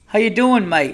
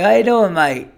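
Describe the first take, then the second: First: High, loud Aussie attempt that slips toward English; mock Australian accent, unsure of itself; botched Australian accent. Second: Loud, high, hammed-up Aussie greeting; corrected Australian accent, big and loud. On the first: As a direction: try a hammed-up Australian greeting. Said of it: "I always fuck up the English accent with the Australian". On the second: Shown as a demonstration. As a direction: punch it out in broad mock Australian. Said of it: "It's more like that".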